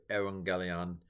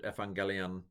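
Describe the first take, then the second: First: "evangelion" opening with a w glide; "ew" pronunciation. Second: "evangelion" opening with ef, hard g; "ef" pronunciation. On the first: Teacher giving the preferred option, ew pronunciation. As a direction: say "evangelion" as eh-wang-GHE-lee-on. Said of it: "I think evangelion is probably". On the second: Teacher giving one debated option, ef pronunciation. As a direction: say "evangelion" as ef-ang-GHE-lee-on. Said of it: "to pronounce it". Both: Shown as a demonstration.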